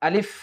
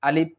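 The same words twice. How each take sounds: First: The consonant is made with teeth on lower lip. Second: The consonant is made by closing both lips. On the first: The speaker calls it right. "উপরের দুই দাঁতটি নিচের ঠোঁটের সঙ্গে লাগিয়ে দিলেই" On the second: The speaker calls it wrong. "আমরা অনেকে ভুল করে থাকি, অর্থাৎ আমরা বলি আলিফ আলিফ, দুইটি ঠোঁট মিলিয়ে দিই"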